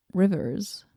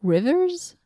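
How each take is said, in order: First: Said in the usual way. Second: Puzzled. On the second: Acted. Puzzling over the inscription.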